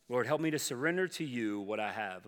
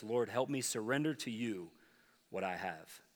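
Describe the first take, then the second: First: Said in the usual way. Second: Hushed, softer prayer to the Lord; quiet prayer. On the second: Shown as a demonstration. Pastor quietly demonstrates the second prayer to the congregation, hushed and tender. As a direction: pray it gently, almost under the breath. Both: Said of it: "The second prayer is this".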